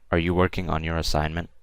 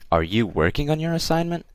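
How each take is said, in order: First: It ends flat or falling, like a statement. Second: It ends with a rising, questioning tune.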